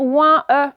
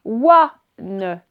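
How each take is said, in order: First: Ouin E said as ouin plus a separate e; wrong reading. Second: Ouane said as wan, in one syllable; right reading. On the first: Teacher showing pupils the wrong reading ouin E. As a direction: read it wrongly as ouin then e. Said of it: "on va pas dire". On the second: Teacher giving pupils the correct reading ouane. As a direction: say ouane with an open a and a final n. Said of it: "ça va nous faire". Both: Shown as a demonstration.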